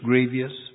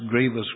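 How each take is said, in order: First: The word is said the Texas way. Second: The word is said the plain way.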